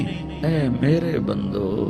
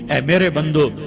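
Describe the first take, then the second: First: It is said in a warm, tender tone. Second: It is said in a plain, unaffectionate tone. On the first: The speaker calls it right. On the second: The speaker calls it wrong.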